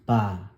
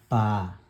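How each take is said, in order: No difference in how they are said.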